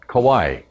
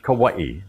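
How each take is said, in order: First: No glottal stop comes before the final syllable. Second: A glottal stop comes before the final syllable. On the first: This is the older form used by older locals. "they call it Kauai without the akina" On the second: This is the modern form of the name. "the modern form of that is Kauai"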